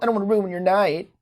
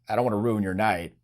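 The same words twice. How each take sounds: First: It sounds hesitant and insecure, with stammering. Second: It sounds calm, casual and self-assured. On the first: The speaker worries about being unwanted. The speaker calls it wrong. "this kind of butthurt tonality" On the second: The speaker is comfortable either way. The speaker calls it right. "The correct approach is giving self-assuredness"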